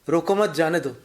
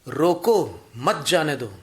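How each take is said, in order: First: The pause comes right after 'mat'. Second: The pause comes right after 'roko'.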